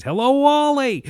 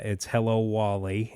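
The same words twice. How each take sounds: First: Much higher, much louder, big exaggerated greeting; emphatic read-aloud. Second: Said in the usual way. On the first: Shown as a demonstration. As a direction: read it like an animated kids' book. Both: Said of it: "I read with emphasis".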